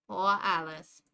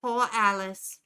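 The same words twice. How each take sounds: First: Jersey pity, lower; Jersey accent. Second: Put-on pitying Jersey accent; a light Jersey sigh of pity. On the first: Acted. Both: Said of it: "It leans into stereotypes".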